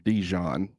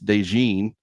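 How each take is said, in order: First: The name sounds like the mustard Dijon. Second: The name is said as DeJean. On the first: It is a teasing mispronunciation. The speaker calls it wrong. "she calls him Dijon because she just knows that it annoys me" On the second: It is the correct pronunciation. The speaker calls it right. "it's DeJean"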